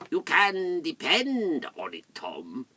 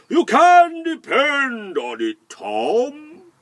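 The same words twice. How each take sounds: First: It is said in a cold, icy voice. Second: It is said in a warm, sunny voice.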